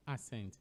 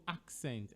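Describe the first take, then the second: First: "accent" without the K, as "assent"; wrong "accent". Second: "accent" with a K, AK-sent; correct "accent". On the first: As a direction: drop the K: "accent" as a-SENT. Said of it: "and not accent". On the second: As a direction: sound K then S in "accent". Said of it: "So accent and not accent". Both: Shown as a demonstration.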